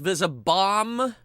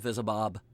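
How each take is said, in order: First: The word ends with an m sound. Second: The word ends with a b sound. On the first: This is the official pronunciation. "It's supposed to be pronounced Visibomb" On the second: This is the speaker's own preferred way of saying it. "It's the Visibob"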